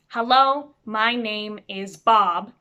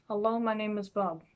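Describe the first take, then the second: First: "Hello, my name is Bob" slow, every sound distinct; clear enunciation. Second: "Hello, my name is Bob" mumbled softly, words run together; mumbling. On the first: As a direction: articulate each word of "Hello, my name is Bob" loudly and clearly. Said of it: "how you stop yourself from mumbling". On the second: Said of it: "stop yourself from mumbling". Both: Shown as a demonstration.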